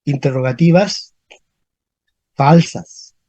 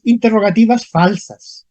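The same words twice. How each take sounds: First: Low, separated "Interrogativas ... falsas"; long pause between "Interrogativas" and "falsas"; dictating. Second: Said in the usual way. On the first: Shown as a demonstration. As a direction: repeat "Interrogativas falsas" in two low, measured pieces. Term repeated slowly for the class.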